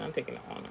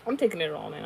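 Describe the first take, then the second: First: "I'm taking it all in." whispered, no voice; whispered aside. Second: Said in the usual way. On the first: Shown as a demonstration. Savouring her sister's request, whispered aside.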